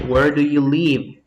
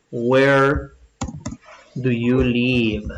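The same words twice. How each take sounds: First: Said in the usual way. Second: "Where do you live?" drawn out word by word, with a pause after "Where"; slow dictation. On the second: Shown as a demonstration. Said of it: "Escribamos eso, pues". ("Where do you live?" dictado muy despacio)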